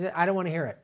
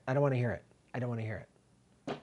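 First: Said in the usual way. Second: Fading repeat; fading away. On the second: Real, not acted. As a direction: lower and softer, trailing off to near silence.

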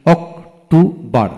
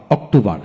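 First: "October" slowly as অক, টো, বর; three separate beats in "October"; split into syllables. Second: Said in the usual way. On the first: Shown as a demonstration. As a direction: sound out "October" piece by piece. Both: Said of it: "তিনটি syllable থাকে".

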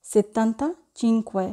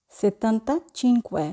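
No difference in how they are said.

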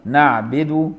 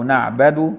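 First: نعبد said 'naʕbidu'. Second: نعبد said 'naʕbadu'. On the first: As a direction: give the ب in نعبد an i. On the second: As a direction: give the ب in نعبد a fatha. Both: Shown as a demonstration. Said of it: "بكسر الباء أو بفتحها".

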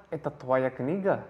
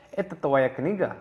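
The two takes are said the same way.

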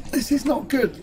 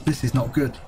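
First: High-pitched worry; rising alarm. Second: Low-pitched, muted worry; real low-voiced concern. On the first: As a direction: pitch jumps up in real concern. Repeats it as trouble grows. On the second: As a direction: say it low, as a grim note to yourself. Player sees trouble coming. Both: Real, not acted.

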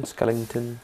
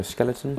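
First: Skellington? said skel-ing-ton, with an ing in the middle; Skellington? with an added ing sound, light query; jokey mispronunciation. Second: Skeleton? said skel-e-ton, three plain syllables, asking rise; Skeleton? with the middle e sound, questioning; standard pronunciation. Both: Shown as a demonstration. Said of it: "Skellington or skeleton?".

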